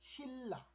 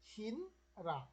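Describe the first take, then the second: First: A long double l sound joins the syllables. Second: An n sound is followed by an r sound. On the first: The speaker calls it right. "ন আর র মিলে ল ল হয়ে যায়" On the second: The speaker calls it wrong. "আপনি শিন রা বললে কোনো কোরিয়ানি বুঝবে না এবং এটা ভুল উচ্চারণ"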